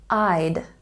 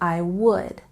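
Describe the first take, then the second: First: The words are shortened into one syllable. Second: Both words are said in full. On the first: "And shortened" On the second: "with would, we don't pronounce the L sound"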